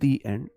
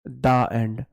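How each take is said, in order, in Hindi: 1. 'The' को लंबे 'ee' स्वर के साथ बोला जाता है। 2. 'The' को छोटे 'uh' स्वर के साथ बोला जाता है। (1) "इसको बोलेंगे दी एंड" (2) "दा एंड लिखना है तो लिखना डी ए"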